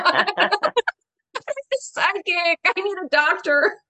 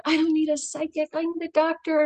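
First: Higher, slow, drawn-out whine; mock-whine the need for a doctor; exasperated whining to herself; whiny protest. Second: Higher, firm insistence to her father; a light protest aimed at father; insisting. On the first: Inner protest at being sent to psychic. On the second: Retold or imitated. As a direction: plead it flatly to her dead dad. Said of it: "I think to my father".

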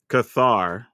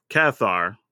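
First: "Cathar" with a reduced first syllable, kuh-THAR; second pronunciation of Cathar. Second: "Cathar" with a short a, as in cat, in the first syllable; first pronunciation of Cathar. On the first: Offering the alternative, "Cathar" said kuh-THAR. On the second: Quoting a complaint about the word, "Cathar" said KATH-ar. Shows two ways of saying it. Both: Shown as a demonstration.

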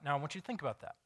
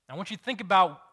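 First: Said in the usual way. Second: Much higher and louder, stress on "think"; preacher hammering the point home; emphatic repeat. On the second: Shown as a demonstration. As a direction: push "think" up hard the second time.

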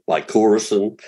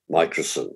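First: "like, Corison" as one name, my-CORR-ison; "like, Corison" with a full middle syllable, COR; alternative pronunciation. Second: Microcin, said as MY-kruh-sin; usual pronunciation. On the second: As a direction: say microcin with the first syllable stressed, MY. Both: Shown as a demonstration. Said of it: "Some people say".

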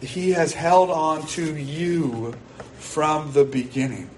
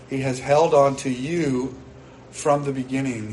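First: He has HELD on to you, slow, each word weighed, stress on "held". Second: Said in the usual way. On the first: Real, not acted. Preacher to anxious congregation, slow weighty stress on "held". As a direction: lean hard on "held", slow and deliberate. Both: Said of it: "And hear this".

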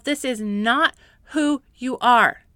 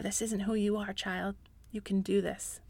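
First: Slow, strong emphatic statement; firm declaration. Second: Put-on much softer, tender reassurance to a child; God's gentle voice. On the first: Real, not acted. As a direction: declare it slowly and firmly. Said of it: "remind yourself". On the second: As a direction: speak softly like a loving father. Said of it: "remind you of who you really are".

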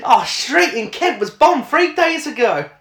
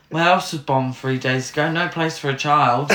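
First: High mock quote, laughing; mocking film line. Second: Mock quote of film line. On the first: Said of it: "she actually says the words". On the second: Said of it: "somebody fucking wrote that".

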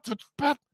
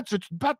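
First: « Tu veux-tu te battre? » encore plus aigu, montée marquée sur battre; défi très aigu. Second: « tu veux-tu te battre? » nettement plus haut, question qui monte; défi plus haut. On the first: (défi répété, beaucoup plus aigu) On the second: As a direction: lance le défi en montant. (défi aigu et montant) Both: Retold or imitated. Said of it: "en criant".

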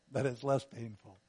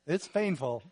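First: "less" lifted and leaned on, "painful" lower; stress on less. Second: "painful" pressed out a bit louder; stress on painful. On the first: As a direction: push the word "less" to contrast. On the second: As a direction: lean on "painful" as the plain fact. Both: Shown as a demonstration.

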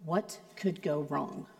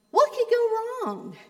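First: Low, soft, ominous question; wife's ominous version. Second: High, bright carefree question; tossed off high and easy; friend's carefree version. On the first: Wife warning darkly, low and soft. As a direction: drop low and quiet like a warning. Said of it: "totally different from when my wife says". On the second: Friend asking lightly, high pitched. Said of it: "it sounds totally different from when my wife says". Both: Retold or imitated.

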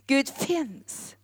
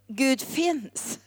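The two takes are said the same way.

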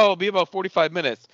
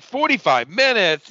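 First: Said in the usual way. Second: High, drawn-out whiny disbelief, imitating her; mock whining. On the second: Girlfriend told to wait for dinner, mock whining. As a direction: stretch it out in a mocking whine. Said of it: "like, whining about everything".

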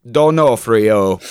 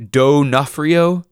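First: D'Onofrio in a slow, flat robot voice; D'Onofrio spoken like a machine. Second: D'Onofrio said slowly with a rising, questioning pitch; D'Onofrio, slow and high, marked as wrong; wrong pronunciation. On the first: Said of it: "in the robot voice". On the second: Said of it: "Absolutely not". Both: Shown as a demonstration.

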